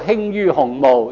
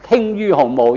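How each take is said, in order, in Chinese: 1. 它用文讀音。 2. 它用口語白讀音。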